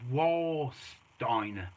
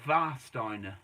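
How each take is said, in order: First: The word begins with a w sound. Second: The word begins with a v sound. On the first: The speaker calls it wrong. "you might say think it says Warsteiner" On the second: The speaker calls it right. "In Germany, W is pronounced as a V. So this is known as"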